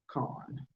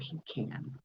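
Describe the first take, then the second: First: The word does not sound like 'pee can'. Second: The word sounds like 'pee can'. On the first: The speaker calls it right. "It is pecan" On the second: The speaker calls it wrong. "that sounds like you are peeing in a can"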